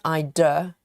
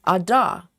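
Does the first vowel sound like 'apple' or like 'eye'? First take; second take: eye; apple. First: The first vowel sounds like the word eye. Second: The first vowel sounds like the a in apple. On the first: The speaker calls it wrong. "Not rather than Ida" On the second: The speaker calls it right. "Like A is pronounced like apple"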